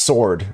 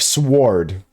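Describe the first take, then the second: First: It is said with no W sound. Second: It is said with a W sound. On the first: The speaker calls it right. "There's no W pronunciation in it" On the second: The speaker calls it wrong. "instead of sword"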